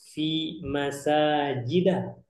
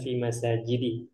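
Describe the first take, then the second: First: The last word ends with an a vowel. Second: The last word ends with an i vowel. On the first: The speaker calls it right. "Antum bilangnya seperti ini" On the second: The speaker calls it wrong. "bukan fi masajidi"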